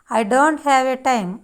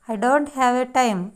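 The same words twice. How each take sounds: The two takes are said the same way.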